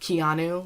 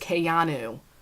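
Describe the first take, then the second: First: It sounds like the name Keanu. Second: It sounds like Kayano, stressing the ayano part. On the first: The speaker calls it wrong. "I want to say the gel Keanu, like Keanu Reeves" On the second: The speaker calls it right. "I have to emphasize the Ayanu to make sure I say it right"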